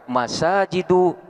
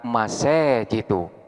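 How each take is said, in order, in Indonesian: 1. Huruf panjang itu adalah a terbuka yang biasa. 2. Huruf panjang itu condong ke e. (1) "yang asalnya dibaca" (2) "boleh dibaca imalah"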